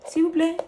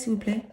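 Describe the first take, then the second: First: Higher, pleading "S'il vous plaît". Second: Said in the usual way. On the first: Pretend. Host begging her threads to make room, higher pleading voice. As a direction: beg the threads sweetly, up high.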